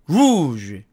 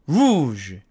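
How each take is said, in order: The two takes are said the same way.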